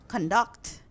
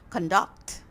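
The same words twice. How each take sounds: First: The stress is on the second syllable. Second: The same.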